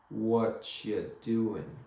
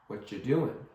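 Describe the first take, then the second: First: It is said slowly. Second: It is said fast.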